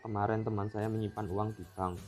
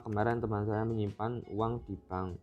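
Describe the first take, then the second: First: The stress is on teman. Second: The stress is on uang.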